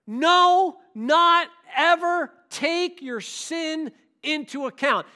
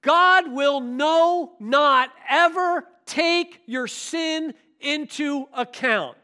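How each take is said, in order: First: Loud "No" then slow "not ever"; emphatic stress. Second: Slow, loud, stretched "no" and "ever"; emphatic stress. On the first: Preacher repeats God will not ever count sin, loud and slow. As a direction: punch "No" and drag "not ever take". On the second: Preacher stresses God will not ever count sin, slow and loud. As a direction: lean hard on "not ever". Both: Shown as a demonstration. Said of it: "So we can say it".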